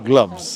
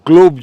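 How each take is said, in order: First: The vowel sounds like the one in love. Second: The vowel sounds like the one in globe. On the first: The speaker calls it right. "গ্লাভসের উচ্চারণটা যেটা গ্লাভস" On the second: The speaker calls it wrong. "উচ্চারণটা আবার গ্লোভ যেন না হয়।"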